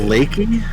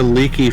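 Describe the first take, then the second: First: The first vowel is an 'ay' sound. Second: The first vowel is a long 'ee' sound. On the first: "to be like a lake" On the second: "like a leaky faucet"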